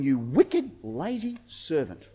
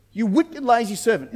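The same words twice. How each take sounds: First: Low, grave rebuke; acted stern judgement, sinking in volume; stern master. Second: Acted scolding, raised from a growing displeasure; firm mock-master telling-off; sharp rebuke. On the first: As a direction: drop low and slow down into a quiet condemnation. Master rebukes servant, low first take. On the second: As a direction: repeat the condemnation briskly and firmly. Same rebuke repeated higher, quicker.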